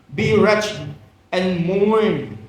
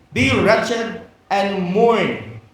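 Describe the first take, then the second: The two takes are said the same way.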